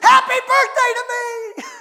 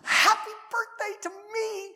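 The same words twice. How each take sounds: First: It is screamed out loudly. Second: It is said quietly, without shouting.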